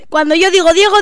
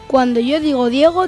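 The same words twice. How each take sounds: First: The phrase is spoken at a fast pace. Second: The phrase is spoken at a normal pace. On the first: "Velocidad rápida. La más rápida" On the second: "Velocidad normal"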